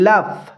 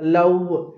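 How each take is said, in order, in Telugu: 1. చివరి v లో కింది పెదవి పై పళ్ళపై ఉంటుంది. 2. చివరి v ను పెదవి-పళ్ళ స్పర్శ లేకుండా చేస్తారు. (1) "లోయర్ లిప్ని బైట్ చేస్తూ చెప్పాలి" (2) "రాంగ్ వేలో మనం మిస్ప్రొనౌన్స్ చేస్తూ ఉంటాము"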